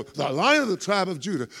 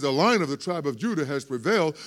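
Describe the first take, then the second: First: High, triumphant cry of the title; mock-thrilled shout of the lion title; excited exclaim. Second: Said in the usual way. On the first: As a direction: congregation getting all excited. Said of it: "we would stop there and go". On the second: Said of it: "so the elder says".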